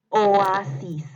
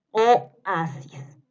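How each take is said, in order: First: Projected, drawn-out "Oasis"; dictation. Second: "Oasis" broken as o, pause, asis; syllable-split dictation. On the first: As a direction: run the long o into a in "Oasis", loudly. (dictado fuerte, alargando "Oasis") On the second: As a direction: detach the first vowel of "Oasis". (dictado separando la "o" de "Oasis") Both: Shown as a demonstration. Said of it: "les voy a ir dictando".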